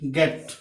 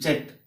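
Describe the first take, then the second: First: The word begins with a hard g sound. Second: The word begins with a j sound. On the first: The speaker calls it right. "इसका उच्चारण गेट होता है" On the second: The speaker calls it wrong. "न कि जेट"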